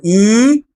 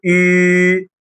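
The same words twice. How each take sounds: First: "اي" as a long ee, lips spread; downward "ee". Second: "اي" as a long ü, ee through rounded lips; French U. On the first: Teacher contrasting the diving vowel, long ee. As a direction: draw out "اي" as a plain French i. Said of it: "ده اسمه اي غطسانه لتحت". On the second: Teacher contrasting it with i, rounded long ü. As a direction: hold "اي" level and slow with lips rounded. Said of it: "وده اسمه اي". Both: Shown as a demonstration.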